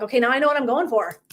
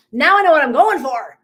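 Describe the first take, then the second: First: Said in the usual way. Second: Loud, higher, fired-up declaration; emphatic realization. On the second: Retold or imitated. Planning to host retreats herself, loud excited realization. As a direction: belt it out like a breakthrough.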